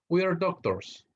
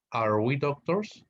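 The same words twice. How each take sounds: First: Said in the usual way. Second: Slow question rising on doctors; teacher models the question form; question tune. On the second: Shown as a demonstration.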